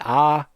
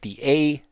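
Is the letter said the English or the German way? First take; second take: German; English. First: The letter is said with a German sound. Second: The letter is said with an English sound.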